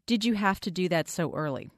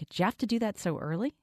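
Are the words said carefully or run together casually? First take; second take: careful; casual. First: Each word is said fully and separately. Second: The words are reduced and linked together. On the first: "a sentence in English like" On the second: "Most American speakers in casual conversation would pronounce that more like"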